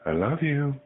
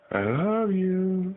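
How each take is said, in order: First: Said in the usual way. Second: High slow coo. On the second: Shown as a demonstration.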